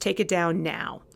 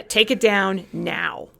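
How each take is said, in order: First: Said in the usual way. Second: Dictating an order, slowly; slow stern command. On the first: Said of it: "no explanation, just". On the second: Retold or imitated. Kristen demanding the flyer come down, slow stern command. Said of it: "an angry phone call from Kristen".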